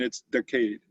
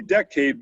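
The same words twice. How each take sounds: First: "decade" in a Boston accent, as Kennedy says it. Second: Said in the usual way. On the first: Shown as a demonstration. Showing how Kennedy says decade, Boston accent. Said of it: "but with a Boston accent, it's decade". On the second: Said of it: "It's really decade, but with a Boston accent".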